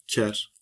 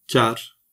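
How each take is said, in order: First: "ker" with a hard K; hard-read K at the start of "ker". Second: "kar" with a soft K; soft-read K at the start of "kar". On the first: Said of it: "diğeri sert okunur". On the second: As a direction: say "kar" with the soft Kurdish K, louder. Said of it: "Biri yumuşak okunur". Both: Shown as a demonstration.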